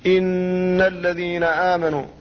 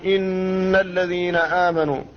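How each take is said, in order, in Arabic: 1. الغنة على النون تستمر حركتين. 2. الغنة على النون تستمر حركتين.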